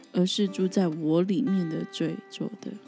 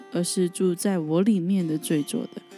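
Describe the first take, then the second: Both takes have the same delivery.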